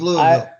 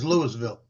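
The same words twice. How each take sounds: First: The name is said the way locals say it. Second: The name is said the way outsiders say it. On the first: The speaker lives in the city. "If you live there, it's" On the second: The speaker does not live in the city. "If you don't live there, it's"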